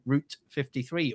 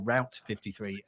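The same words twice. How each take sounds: First: Route is said with a non-American pronunciation. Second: Route is said with an American pronunciation.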